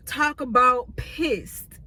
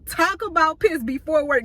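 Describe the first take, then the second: First: Said in the usual way. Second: Annoyed emphasis. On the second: Retold or imitated.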